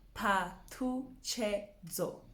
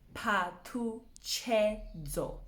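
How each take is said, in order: Both takes have the same delivery.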